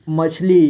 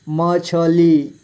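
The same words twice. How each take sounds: First: Said in the usual way. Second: मछली slowly as म, छ, ली; letter by letter. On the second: Shown as a demonstration. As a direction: give छ its own vowel in मछली. (मछली को तोड़कर: म, छ, ली) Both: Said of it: "थोड़ा फास्ट पढ़ेंगे".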